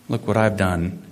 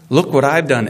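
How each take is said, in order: First: It is said with a heavy sigh. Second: It is said as a loud exclamation.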